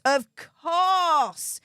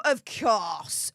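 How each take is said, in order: First: "course" stretched out and pitched up; stress on COURSE. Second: Said in the usual way. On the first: Real, not acted. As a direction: lean hard and long on "course". Repeats it for sarcastic emphasis.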